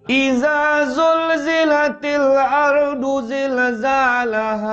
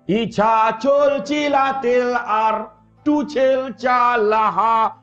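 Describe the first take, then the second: First: The z sounds are said clearly. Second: The z sounds are replaced by another sound.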